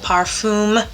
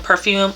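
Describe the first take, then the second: First: It is said with an attempted French pronunciation. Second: It is said with an English pronunciation.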